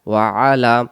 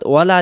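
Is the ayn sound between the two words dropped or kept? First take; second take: kept; dropped. First: The words stay apart and the ayn stays. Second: The words run together and the ayn drops. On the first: It means and upon. The speaker calls it right. "ওয়ালা আলী মোহাম্মদ না পড়ে ওয়া আলা" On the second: It means and not. The speaker calls it wrong. "টেনে পড়ার গতির ক্ষেত্রে এই শব্দটা ওয়ালা উচ্চারণ হয়ে যায়"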